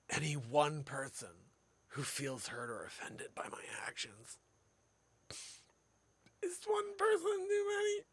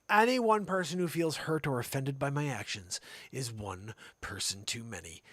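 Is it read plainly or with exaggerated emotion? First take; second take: emotional; plainly. First: It is read with exaggerated, theatrical emotion. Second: It is read plainly, without added emotion.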